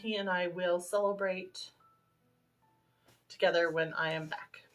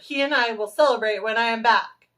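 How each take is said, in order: First: It is said at normal volume. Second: It is said loudly.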